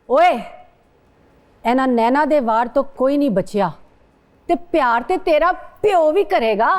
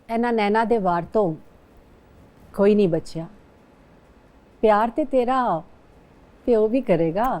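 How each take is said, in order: First: It is said in an angry tone. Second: It is said in a romantic tone.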